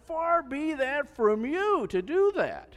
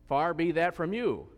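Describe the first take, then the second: First: Much higher, louder and slow, pleading hard; emphatic plea. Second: Raised, measured reading of the line; scripture reading. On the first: Retold or imitated. Preacher voices Abraham begging the Lord, loud slow plea. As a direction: beg the Lord earnestly, leaning on every word. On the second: Acted. Preacher reads Abraham's plea to the congregation, measured reading. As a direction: read it as part of the passage. Read within the scripture passage.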